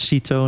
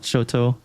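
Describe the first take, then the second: First: The first vowel sounds like 'ee'. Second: The first vowel sounds like 'oh'. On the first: This is how the speaker always read the name. "kind of pronounced as" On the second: This is the other reading of the name.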